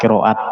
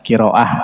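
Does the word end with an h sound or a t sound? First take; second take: t sound; h sound. First: The word ends with a t sound. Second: The word ends with an h sound. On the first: The word is joined to what follows. "kalau disambung dia menjadi tak" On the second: The word stands at a pause. "kalau wakop dia menjadi bunyi ha"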